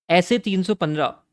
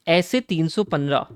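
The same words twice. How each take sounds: The two takes are said the same way.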